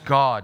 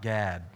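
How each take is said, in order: First: The vowel is broad, like in father. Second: The vowel is flat, like in cat. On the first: The speaker calls it right. "And it's God" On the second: The speaker calls it wrong. "not Gad. That's a tribe"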